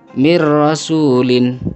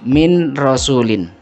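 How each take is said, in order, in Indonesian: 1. Huruf n melebur penuh ke dalam r setelahnya. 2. Huruf n jelas diucapkan sebelum r.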